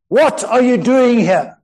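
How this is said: The question is asked in an angry tone.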